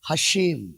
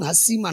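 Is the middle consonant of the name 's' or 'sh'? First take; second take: sh; s. First: The middle consonant is a 'sh' sound. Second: The middle consonant is a plain 's' sound. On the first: The speaker calls it right. "ఆయన పేరు హషేం" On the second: The speaker calls it wrong. "కానీ చాలా మంది హస్సీం హస్సీం అంటున్నారు"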